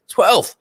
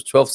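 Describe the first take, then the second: First: High-pitched, incredulous exclamation; astonished repeat, pitched right up. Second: Said in the usual way. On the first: Real, not acted. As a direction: blurt it out, much higher, in disbelief. Repeats the number in disbelief.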